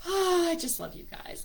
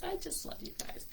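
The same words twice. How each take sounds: First: Said in the usual way. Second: Soft breathy whisper, no voice; whispered repeat. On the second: Real, not acted. Host whispering her love to the group, whispered. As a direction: hush it like a secret.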